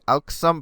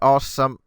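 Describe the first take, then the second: First: The name starts with a sounded 'alk'. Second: The name starts with 'aw', no 'l'. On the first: "I say Alksam" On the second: "but they say awesome"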